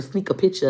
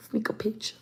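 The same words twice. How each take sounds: First: Said in the usual way. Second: Hushed, unvoiced whisper; whispered on the sly; sneaky whisper. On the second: Shown as a demonstration. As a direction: whisper it like a secret. Echoes the secret act in whisper.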